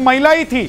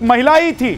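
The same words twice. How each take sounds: The two takes are said the same way.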